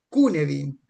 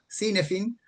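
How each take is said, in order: First: The word is said with its Welsh pronunciation. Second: The word is read out just as spelled. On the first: The speaker calls it right. "en realidad se pronuncia" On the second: The speaker calls it wrong. "a mí me gusta nombrarlo como suena"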